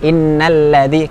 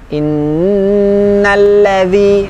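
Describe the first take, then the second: First: The nasal n sound is cut short. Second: The nasal n sound is held long. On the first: The speaker calls it wrong. "kita buru-buru ... kurang sempurna" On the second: The speaker calls it right. "maka mendengungkannya dipanjangkan lebih dari satu ayunan"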